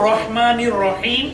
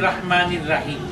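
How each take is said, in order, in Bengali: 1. 'r'-এর পরের স্বরধ্বনিটি গোল, o-এর মতো শোনায়। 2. 'r'-এর পরের স্বরধ্বনিটি খোলা a-এর মতো শোনায়। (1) "কিন্তু আসল হবে" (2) "অনেক লোক ... বলে থাকেন"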